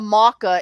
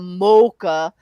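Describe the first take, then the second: First: The first vowel is not a long O. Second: The first vowel is a long O. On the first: Another person's pronunciation of the drink's name. The speaker calls it wrong. "he said it's a maca" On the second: The speaker's own pronunciation of the drink's name. The speaker calls it right. "The long O is the best O"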